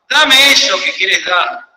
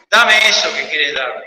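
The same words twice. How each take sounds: First: Drawn out, slow plea; slow pleading. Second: Lower echo. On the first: God asks for all the believer holds, slow and pleading. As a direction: lean into each word slowly, asking. God's voice asking in prayer. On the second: The plea to the believer repeated, lower and settled. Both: Acted.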